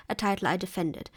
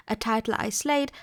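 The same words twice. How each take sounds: First: Title stressed, defended left light and falling; stress on title, not defended. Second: Slayed stressed, pitch rising on the word. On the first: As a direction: hit title, let defended drop. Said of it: "But he doesn't". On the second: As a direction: lean hard on slayed, lift it up. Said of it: "He's already chosen to emphasize the verb". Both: Shown as a demonstration.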